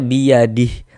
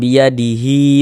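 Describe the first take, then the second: First: The word stops on h with no final vowel. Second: The final hi is drawn out into the next word. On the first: The reader stops at this word. "kalau kita wakafkan ... ini kita baca biyadih. Nah, tidak berlaku tanda panjangnya" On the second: The reader continues without stopping. "kalau kita wasolkan biyadihi malaku, berlaku tanda panjangnya"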